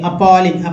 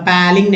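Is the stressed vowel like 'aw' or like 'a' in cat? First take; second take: aw; a in cat. First: The stressed vowel sounds like 'aw'. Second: The stressed vowel sounds like 'a' in cat. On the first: The speaker calls it right. "सही correct way में उच्चारण सीखे" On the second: The speaker calls it wrong. "नहीं"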